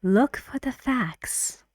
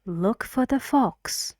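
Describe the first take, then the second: First: "facts" with an open front a vowel; minimal-pair demo. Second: "fox" with an open back o vowel; minimal-pair demo. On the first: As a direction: model sentence, "facts" sounding like "fax". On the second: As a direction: model sentence, "fox" rhyming with "box". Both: Shown as a demonstration. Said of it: "I read the sentence for you".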